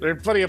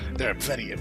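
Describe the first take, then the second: First: It is read in a plain voice. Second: It is read in a noir narrator voice.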